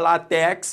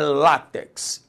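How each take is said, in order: First: The stress is on the second syllable. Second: The stress is on the first syllable. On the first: The speaker calls it wrong. "aí deu rolo" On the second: The speaker calls it right. "É o lá"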